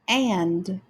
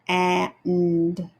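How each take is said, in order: First: The word is said quickly as one unit. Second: The sounds are drawn out slowly. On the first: "then reading it quickly" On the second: "stretching out the sounds"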